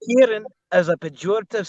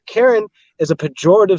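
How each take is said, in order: First: It is read in a put-on accent. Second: It is read in a plain, natural voice. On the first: The speaker calls it right. "You want me to do it in an accent?" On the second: The speaker calls it wrong. "You can't read it like that"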